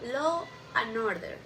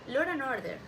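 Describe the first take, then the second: First: No R sound is added after law. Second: An R sound is added after law.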